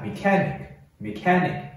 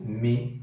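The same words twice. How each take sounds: First: Said in the usual way. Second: Mechanic broken into me, ca, nic with long pauses; split into syllables. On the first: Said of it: "连起来". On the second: Shown as a demonstration. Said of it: "直接把音节划分出来".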